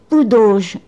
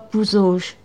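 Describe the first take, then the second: First: The middle consonant is a d sound. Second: The middle consonant is a z sound. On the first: This is an old local pronunciation. The speaker calls it right. "prononcer Poudauge et non pas Pouzauge. Je crois que c'était une vieille prononciation" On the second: This is the usual current pronunciation. The speaker calls it wrong. "et non pas Pouzauge"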